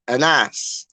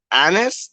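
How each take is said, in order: First: Anas said a-NASS, stress on the end; second-syllable stress. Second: ANNIS said AN-is, stress up front; first-syllable stress. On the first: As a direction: say Anas with a quick first vowel and a full, stressed NASS. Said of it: "That's two". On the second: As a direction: say Annis with a strong first syllable and a short, weak ending. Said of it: "I wanna pronounce it properly". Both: Shown as a demonstration.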